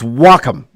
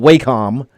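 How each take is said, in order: First: It is said rhyming with 'sock'em'. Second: It is said not rhyming with 'sock'em'. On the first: The speaker calls it right. "it's like Sock'em. It's Wacom" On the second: The speaker calls it wrong. "It's not Wacom"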